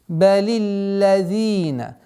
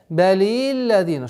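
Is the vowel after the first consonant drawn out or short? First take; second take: short; drawn out. First: The first i vowel is short and even. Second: The first i vowel is drawn out long. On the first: The speaker calls it right. "Нужно четко, равномерно" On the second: The speaker calls it wrong. "четко произнести огласовку касра удлиняют"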